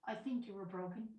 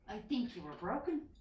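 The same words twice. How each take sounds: First: It is said at a quieter volume. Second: It is said at a louder volume.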